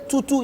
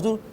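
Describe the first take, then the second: First: "tutu" with the wrong tones, pitched high; mispronounced Yoruba word. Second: "tutu" with the intended Yoruba tones; correct Yoruba tones. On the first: Child misreading the Yoruba Bible to father, mistoned "tutu". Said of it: "If you say "tutu". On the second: Showing how father wanted it read, correctly toned "tutu". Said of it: "instead of". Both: Shown as a demonstration.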